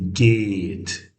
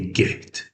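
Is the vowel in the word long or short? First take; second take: long; short. First: The vowel is drawn out long. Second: The vowel is short and clipped. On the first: The speaker calls it right. "we say geht, a bit longer" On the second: The speaker calls it wrong. "We don't say get"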